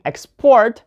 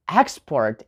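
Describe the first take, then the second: First: Export as ex-PORT, second syllable strong; verb stress. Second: Export as EX-port, first syllable strong; noun stress. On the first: Teacher showing the verb, export stressed on PORT. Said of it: "that's a verb". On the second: Teacher contrasting the noun, export stressed on EX. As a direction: lean on EX in export. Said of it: "put the stress on the first syllable". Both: Shown as a demonstration.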